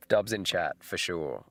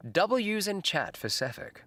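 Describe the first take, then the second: First: Said in the usual way. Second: "W's" drawn out as "double-yous", pitched high; W's said in full. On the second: Real, not acted. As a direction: say "W's" slowly as the full letter name, double-you. Redoes slang with letter spelled out.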